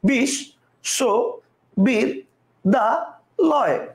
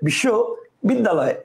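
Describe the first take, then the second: First: The word is broken into five separate parts. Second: The word is broken into two separate parts. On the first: "কয়টা হলো পাঁচটা" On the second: "কয়টা হলো দুইটা"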